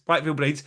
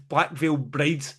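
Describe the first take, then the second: First: Said in the usual way. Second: Disdainful naming. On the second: Real, not acted. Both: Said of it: "what's that fucking terrible band".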